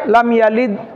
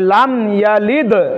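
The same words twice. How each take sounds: First: The final d stops flat without an echoing bounce. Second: The final d is released with an echoing bounce. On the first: The speaker calls it wrong. "এমনি আমাদের সাধারণ ভাবে হয়ে যায় ... মানে দাল কলকলা হয় না" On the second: The speaker calls it right. "সঠিকটা উচ্চারণ করতে গেলে কলকলা করতে হবে"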